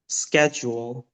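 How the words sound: It is said in an American accent. "in an American accent"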